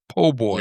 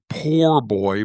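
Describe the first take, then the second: First: The first word is said as po without r. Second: The first word is said in full with r. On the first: This is how the sandwich name is actually said. "but it's pronounced po' boy" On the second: This is the full form the name comes from. "shorthand for poor boy"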